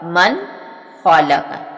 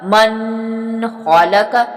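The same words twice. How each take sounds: First: The n sound is pronounced clearly. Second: The n sound is hidden and nasalized. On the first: The speaker calls it right. "इजहार का तरीका यही है" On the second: The speaker calls it wrong. "इस तरह नहीं अदा होगा"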